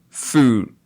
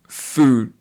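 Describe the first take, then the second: The two takes are said the same way.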